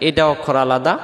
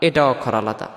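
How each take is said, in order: Both takes have the same delivery.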